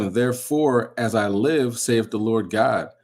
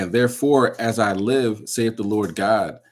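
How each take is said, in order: Both takes have the same delivery.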